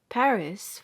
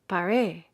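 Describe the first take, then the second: First: The stress is on the first syllable. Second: The stress is on the last syllable. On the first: This is the English way of saying it. "the accent is thrown back as far as possible" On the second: This is the foreign way of saying it. "towards or on the final syllable with strong emphasis"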